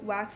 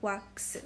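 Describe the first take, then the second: First: It is said with English sounds. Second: It is said with Korean sounds. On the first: "wax in English" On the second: "in Korean it's pronounced like wax. Wax, like that"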